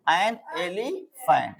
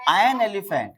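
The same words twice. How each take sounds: First: Very slow, each word drawn out; stretched teacher demo; slow drilled phrase. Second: Said in the usual way. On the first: Shown as a demonstration. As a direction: spell it out slowly for the class.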